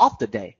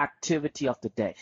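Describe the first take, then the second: First: "of the day" after a pause, clearly stressed; pause then stress. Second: Pause, then a falling "activity of the day"; pause and stress. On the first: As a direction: hold a beat, then land "of the day". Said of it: "แล้วก็แบบหยุด แล้วก็แบบเน้นเสียงสูง". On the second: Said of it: "pause นิดนึง ... เน้นเสียงสูง". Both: Shown as a demonstration.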